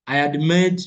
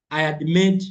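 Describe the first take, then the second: No difference in how they are said.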